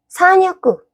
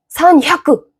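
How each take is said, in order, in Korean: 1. 가운데 h 소리는 빠지거나 약하게 나요. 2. 가운데 h 소리는 강하고 세게 나요. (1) "지금 야크라고 했는데도 샤크로 들리죠?" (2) "히읗을 강하게 내줘야 돼요"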